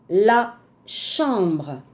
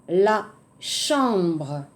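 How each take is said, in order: Both takes have the same delivery.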